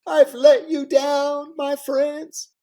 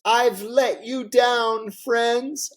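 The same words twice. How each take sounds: First: Very high, loud, slow tearful wail; Clinton fake sobbing. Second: High, slow, choked-up mock weeping; a hammed-up tearful apology; Clinton fake crying. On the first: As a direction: ham up the crying apology even harder. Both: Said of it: "And he starts to cry".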